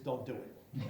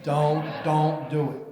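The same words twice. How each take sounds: First: Said in the usual way. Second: "Don't, don't do it" drawn out slow and louder, each word hit; slow emphatic warning. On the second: Shown as a demonstration. Mayor warning councilors off dunk tanks, slow and emphatic. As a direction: lean on every word of "Don't, don't do it", slowly.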